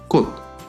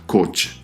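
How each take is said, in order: First: The word ends with a soft t sound. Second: The word ends with a ch sound. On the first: The speaker calls it right. "se pronuncia cot" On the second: The speaker calls it wrong. "no se pronunciará coch"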